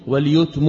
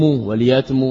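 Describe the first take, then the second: First: واليتم said waljutm with u after the y; first voicing, waljutm; yutm reading. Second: واليتم said waljatm with a after the y; second voicing, waljatm; yatm reading. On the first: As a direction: give واليتم the u vowel, waljutm. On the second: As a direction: give واليتم the a vowel, waljatm. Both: Shown as a demonstration. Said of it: "يتم، يتم".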